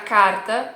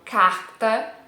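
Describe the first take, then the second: First: The R sounds like a São Paulo or southern R. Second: The R is the strong Carioca R. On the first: "parece um sotaque de São Paulo, parece um sotaque do sul do Brasil" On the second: "o R carioca"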